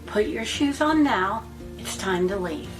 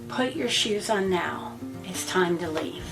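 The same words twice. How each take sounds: First: It is said in a calm, kind tone. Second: It is said in a blunt, direct tone. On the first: "you can say it in a matter-of-fact or even kind way" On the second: "That's very direct"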